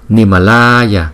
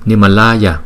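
First: The 'la' vowel is drawn out very long. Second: The 'la' vowel is only slightly lengthened. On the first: This exaggerated length helps learners remember the long vowel. "chúng ta đọc vậy thì nó hơi quá" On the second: This is how it is said in normal recitation. "Nimalaya thì lại là chỉ đủ rồi"

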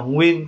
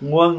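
First: The vowel is pronounced like 'uyên'. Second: The vowel is pronounced like 'uân'. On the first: "mình có hai cách phát âm, mình phát âm là nguyên cũng được" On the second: "nguân là được"

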